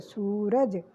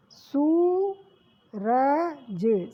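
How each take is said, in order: First: सूरज short, lower and falling; quick repeat. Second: सूरज with a very slow long ऊ; slow drawn. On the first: (सूरज सामान्य दोहराना) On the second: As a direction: drag out सूरज. (सूरज को लंबा खींचकर) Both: Shown as a demonstration. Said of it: "सा पे ऊ की मात्रा लगी".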